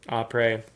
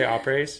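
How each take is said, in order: First: The final S sound is silent. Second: The final S sound is pronounced. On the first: The speaker calls it right. "The S is silent" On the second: The speaker calls it wrong. "Did I say opres?"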